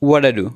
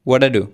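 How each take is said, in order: No difference in how they are said.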